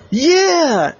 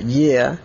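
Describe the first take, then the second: First: High, loud victory whoop; triumphant yeah. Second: Said in the usual way. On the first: Acted. Oliver whooping after catching the ball, high and loud. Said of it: "And he said". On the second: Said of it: "just from the sound of that".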